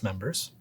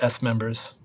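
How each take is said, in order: First: The S is blended into one word. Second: The S is spoken as a separate letter name. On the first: The speaker calls it right. "it's members" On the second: The speaker calls it wrong. "I will not accept S members"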